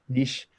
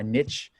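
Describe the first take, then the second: First: The word is said in a British way. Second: The word is said in a non-British way.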